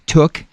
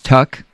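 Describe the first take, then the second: First: The vowel is the plain vowel of 'book'. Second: The vowel is the short neutral 'uh' sound.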